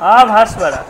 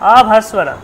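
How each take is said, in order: Both takes have the same delivery.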